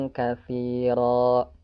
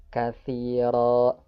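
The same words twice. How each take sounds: Both takes have the same delivery.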